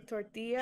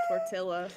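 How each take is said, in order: First: Tortilla with a y sound for the double l; Spanish pronunciation. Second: Tortilla with a hard l sound; mispronounced tortilla. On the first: Showing a word to mispronounce, tortilla said tor-TEE-ya. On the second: Suggesting an insulting mispronunciation, tortilla said tor-TILL-uh. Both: Shown as a demonstration. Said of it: "say tortilla as tortilla".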